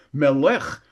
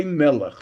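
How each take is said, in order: First: Melech as me-LECH, ending lifted; stress on last syllable. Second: Melech as ME-lech, falling away; strong ME, weak lech in melech; stress on first syllable. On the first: Retold or imitated. Teacher voices the Frenchman asking, melech stressed on LECH. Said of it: "accented on the last syllable". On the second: Shown as a demonstration. Teacher says how we say it, melech stressed on ME. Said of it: "next to the last syllable".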